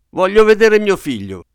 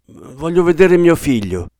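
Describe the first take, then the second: First: Much higher, louder desperate demand; almost scream it, near collapse; near shriek. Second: Higher, louder plea; insistent demand. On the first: Father on the verge of collapse, almost shrieking. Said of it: "quasi strillò mister Button". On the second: Father asking nurse to see his son, insistent. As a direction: press anxiously to be let in. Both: A narrator's reading.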